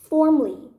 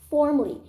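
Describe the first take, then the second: The two takes are said the same way.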